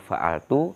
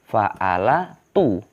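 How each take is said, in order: First: No vowel is pronounced after the L sound. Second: A vowel is pronounced after the L sound. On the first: The silenced letter makes it lighter to say. The speaker calls it right. "fa'altu itu lebih ringan" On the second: Four voweled letters in a row make it heavy to say. The speaker calls it wrong. "seandainya nggak disukun"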